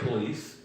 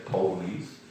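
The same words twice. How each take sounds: First: It is said in a standard accent. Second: It is said in a Baltimore accent.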